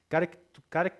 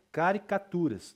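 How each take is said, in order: First: "Caric-, cari-" broken off twice; false starts on "Caric-", stopping mid-word; tongue-tied restart. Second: "caricaturas" completed in one emphatic run; successful retry. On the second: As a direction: push through "caricaturas" without breaking it. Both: Real, not acted. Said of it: "engasguei aqui".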